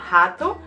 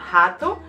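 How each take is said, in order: First: The word has a Brazilian Portuguese pronunciation. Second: The same.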